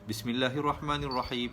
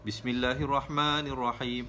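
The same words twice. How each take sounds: First: The vowel in 'ma' is cut short. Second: The vowel in 'ma' is held long. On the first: The speaker calls it wrong. "dia tak boleh baca" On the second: The speaker calls it right. "Dia kena ... ma tetap dia dua harakat"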